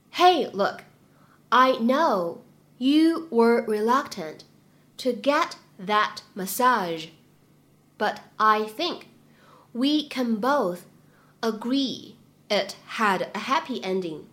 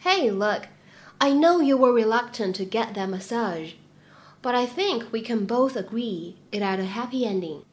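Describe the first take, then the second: First: Very slow, phrase by phrase with pauses; slow chunked reading. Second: Said in the usual way. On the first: Shown as a demonstration. Teacher slowly modelling the line for students, chunk by chunk. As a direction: read it slowly in small chunks for learners. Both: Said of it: "我们需要注意哪些发音技巧呢".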